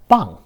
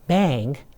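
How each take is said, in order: First: The vowel is an open 'ah' sound. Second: The vowel is like the 'a' in cat. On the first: The speaker calls it right. "but bang" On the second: The speaker calls it wrong. "is not bang"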